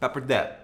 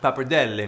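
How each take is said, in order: First: It is said with an American pronunciation. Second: It is said with an Italian pronunciation. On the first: "since we're here in America, we're gonna pronounce it" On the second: "in its original Italiano"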